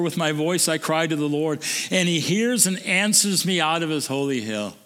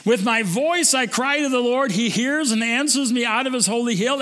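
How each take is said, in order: First: Said in the usual way. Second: Fervent reading. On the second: Shown as a demonstration. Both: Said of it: "Isn't that great?".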